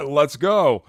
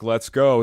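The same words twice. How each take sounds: First: Light imitation of Kurt's fired-up let's go. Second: Said in the usual way. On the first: Host echoes co-host Kurt with a mild fired-up cheer. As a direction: hype it up the way Kurt does, half laughing. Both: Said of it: "sound like Kurt right there".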